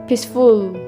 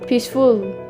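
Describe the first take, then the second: First: The stress is on the second syllable. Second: The same.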